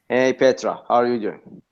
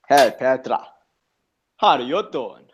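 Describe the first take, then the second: First: It is said in his own normal accent. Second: It is said in a Joey Tribbiani accent.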